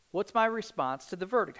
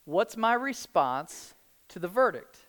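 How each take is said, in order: First: Said in the usual way. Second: "my" drawn out and slow, falling tune; slow, weighing "what's my response"; stress on my. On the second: Shown as a demonstration.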